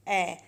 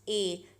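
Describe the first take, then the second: First: ए as short, open "a" as in apple; short vowel sound. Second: ए as the long "ay" of the letter A; name the letter: ए, held like "ay". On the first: Teacher giving the first vowel's sound, ए as short "a". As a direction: say ए as the A in cat. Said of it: "जिसका sound है". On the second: Teacher introducing the first vowel, ए as long "ay". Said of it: "first vowel है हमारे पास". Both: Shown as a demonstration.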